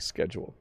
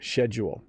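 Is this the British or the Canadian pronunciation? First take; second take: Canadian; British. First: It is said with the usual Canadian pronunciation. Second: It is said with the British pronunciation. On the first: "here we normally say schedule" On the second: "that might be the British pronunciation"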